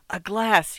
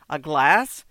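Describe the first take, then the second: First: Hoarse. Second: Said in the usual way. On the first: A narrator's reading. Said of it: "he said hoarsely". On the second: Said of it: "repeated it more clearly".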